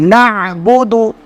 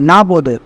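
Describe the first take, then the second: First: The throat consonant is clearly pronounced. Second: The throat consonant is left out. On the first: The speaker calls it right. "नून आइन जबर ना" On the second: The speaker calls it wrong. "नाबुदु गलत है"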